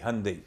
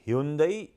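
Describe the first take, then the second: First: The name is said the American way. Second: The name is said the usual Indian way.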